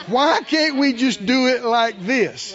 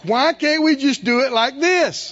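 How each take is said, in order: First: Mock whine. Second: Slower, louder laughing mockery; mock whine, laughing. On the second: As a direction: laugh while mimicking the complaint. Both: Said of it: "how many times Phyllis and I have heard this".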